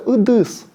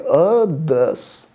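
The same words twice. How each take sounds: First: The vowel is plain, with a Russian accent. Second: The vowel is harsher, deeper in the throat. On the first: The speaker calls it wrong. "с русским акцентом" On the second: The speaker calls it right. "нужно немного грубее"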